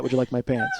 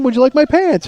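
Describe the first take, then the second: First: "Would you like my pants?" said soft, low and flat; deadpan replay. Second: "Would you like my pants?" said much higher and insistent; indignant replay. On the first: To the audience, repeating "Would you like my pants?" soft and deadpan. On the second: Arguing with his wife, repeating "Would you like my pants?" high and insistent. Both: Retold or imitated. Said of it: "nobody would say that".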